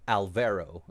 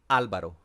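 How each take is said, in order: First: The name is said with an American pronunciation. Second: The name is said with a Spanish pronunciation. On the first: The speaker calls it wrong. "if you are an American, you would say" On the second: The speaker calls it right. "if you want to say it right"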